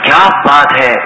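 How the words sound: It is said in an amazed, wondering tone. The speaker is astonished. "اس کا مطلب ہے کوئی بہت ہی تعجب میں یہ الفاظ بول رہا ہے"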